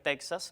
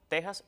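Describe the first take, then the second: First: The x is sounded like ks. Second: The x is sounded like a harsh h. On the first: The speaker calls it wrong. "a veces dicen impropiamente Texas" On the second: The speaker calls it right. "Lo apropiado es México, Texas y Oaxaca"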